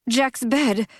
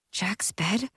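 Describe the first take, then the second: First: Startled exclamation, falling; sudden realization. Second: Hushed, unbelieving whisper; whispered disbelief. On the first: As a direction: it hits him all at once. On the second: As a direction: breathe it out in disbelief. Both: A narrator's reading.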